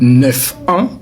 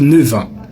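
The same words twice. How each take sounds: First: Neuf ends with an F sound. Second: Neuf ends with a V sound. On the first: The speaker calls it wrong. "au lieu pour me dire" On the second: The speaker calls it right. "le son F se transforme en un son V"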